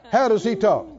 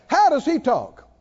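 First: Said in the usual way. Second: How asked high, as a challenge; urgent rhetorical ask; pointed question. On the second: Shown as a demonstration. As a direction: push the question out to the room. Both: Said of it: "repeated question".

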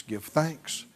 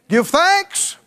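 First: Said in the usual way. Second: "Give thanks" sung out higher, rising on "thanks"; rising exultant call. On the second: Shown as a demonstration. Preacher builds the crowd to praise, "Give thanks" rising high and exultant.

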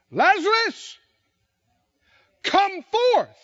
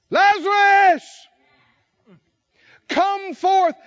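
First: High, loud commanding call into the tomb; loud cry. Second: High, loud, slow call; commanding shout. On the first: Jesus calling Lazarus out of the tomb, loud and commanding. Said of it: "he cried with a loud voice". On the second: The Father calling Lazarus from the grave, shouting. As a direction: bellow the name into the tomb. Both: Acted.

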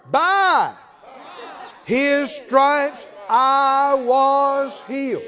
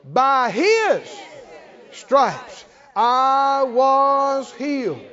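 First: "By" hit high and loud, then "his stripes I was healed" slow and loud; stress on BY. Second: "stripes" punched loud after "By his", slow; stress on STRIPES. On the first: Preacher demonstrating stress on each word in turn. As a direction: punch the first word "By". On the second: Preacher moving the stress to the next word. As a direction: lean hard on "stripes". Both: Shown as a demonstration. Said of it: "you can emphasize every word".

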